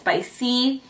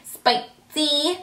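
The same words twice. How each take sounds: First: It is said in her normal voice. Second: It is said in an exaggerated put-on character voice.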